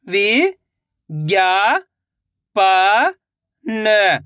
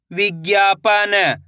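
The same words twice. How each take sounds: First: "वि-ज्ञा-पा-न" very slowly, each syllable held; sounding out slowly. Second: Said in the usual way. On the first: Shown as a demonstration. Teacher showing children how to sound out a word. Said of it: "एक एक अक्षर का उच्चारण करके". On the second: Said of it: "तो मिलके बन जाएगा".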